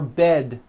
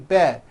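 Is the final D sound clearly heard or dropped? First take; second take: heard; dropped. First: The final D sound is clearly released. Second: The final D sound is dropped or unheard. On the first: The speaker calls it right. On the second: The speaker calls it wrong.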